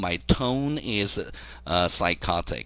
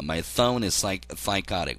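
First: The words are spoken clearly, without a lisp. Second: The words are spoken with a lisp. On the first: "원래는" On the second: "얘 말이 지금 혀 짧은 소리를 하는 겁니다"

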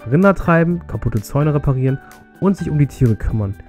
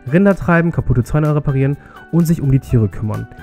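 The two takes are said the same way.

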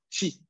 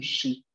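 First: The consonant is pronounced sharp, near the teeth. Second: The consonant is pronounced soft. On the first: The speaker calls it right. "Es chi. La lengua va un poco más cerca a los dientes" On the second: The speaker calls it wrong. "El sonido no es suave. No es un chi"

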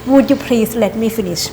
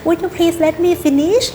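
First: The tone sounds harsh and stern. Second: The tone sounds soft and gentle. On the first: It comes across as a scolding demand. The speaker calls it wrong. "ตายแล้วดูดุนะ" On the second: It comes across as a polite request. The speaker calls it right. "ก็อาจจะใส่น้ำเสียงนิดนึงว่า ... ก็จะดูซอฟลงนะคะ"

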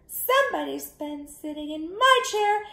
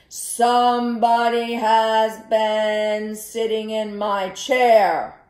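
First: It is said in a tiny, small voice. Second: It is said in a big, deep voice. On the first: The smallest bear is speaking. "in his wee little voice" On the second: The largest bear is speaking. "in his great big voice"

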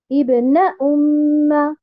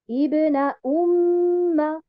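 First: The syllable 'na' is stressed. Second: The syllable 'na' is not stressed. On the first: The speaker calls it wrong. "Je ne vais pas dire Ibna umma" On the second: The speaker calls it right. "je ne vais pas mettre un nabr sur harakat noun"

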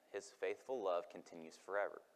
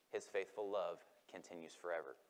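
Both takes have the same delivery.

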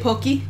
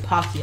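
First: It is said with a Japanese pronunciation. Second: It is said with an English pronunciation. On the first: The speaker calls it right. "which is the correct pronunciation" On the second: The speaker calls it wrong. "I end up saying Pocky a lot because I talk to English speakers very often"

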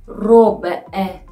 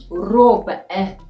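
No difference in how they are said.

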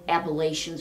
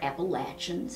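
First: It uses a pronunciation other than the local one. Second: It uses the local Appalachian pronunciation.

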